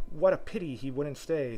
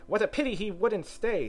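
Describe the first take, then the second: First: Mild sigh of regret; slightly raised, regretful. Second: High, theatrical sigh of regret. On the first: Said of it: "sighed the so". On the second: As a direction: lament it in a high bird voice. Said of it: "sighed the Lory". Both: A narrator's reading.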